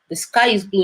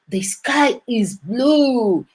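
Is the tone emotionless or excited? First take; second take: emotionless; excited. First: It is said flatly, with no emotion. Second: It is said with excited, lively emotion. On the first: It is a plain statement of fact. The speaker calls it right. "with no emotions at all" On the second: It is treated as surprising news. The speaker calls it wrong. "Nobody go like, wow"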